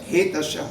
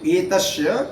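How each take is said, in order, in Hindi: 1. शब्द एक साफ सुनाई देने वाली 'h' ध्वनि से शुरू होता है। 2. शब्द सीधे स्वर ध्वनि से शुरू होता है।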